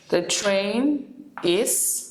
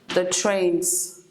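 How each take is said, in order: First: Both words are said fully and separately. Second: The verb is shortened onto the noun. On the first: "for example" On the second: "to shorten it"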